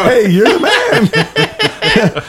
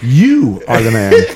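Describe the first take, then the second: First: It sounds casual and admiring, like praise. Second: It sounds accusing, with strong stress on you.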